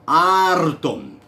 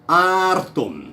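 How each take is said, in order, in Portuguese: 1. O R é vibrante, feito com a ponta da língua. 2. O R é vibrante, feito com a ponta da língua.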